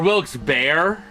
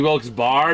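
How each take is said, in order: First: The second part sounds like 'bear', one syllable. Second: The second part sounds like 'bar', one syllable. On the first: The final E changes the vowel sound. "the E at the end usually makes the vowel say its name" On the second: The final E is treated as silent. "because I'm so used to silent E's"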